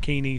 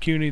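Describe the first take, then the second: First: The name is said as Keeney. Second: The name is said as Cooney. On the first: This is how the player's own side says it. The speaker calls it right. "they call it Keeney" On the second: This is the speaker's own habitual pronunciation. The speaker calls it wrong. "I call it Cooney"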